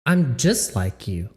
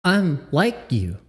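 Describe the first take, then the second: First: Lower mocking repeat. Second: Said in the usual way. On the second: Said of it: "The fuck?".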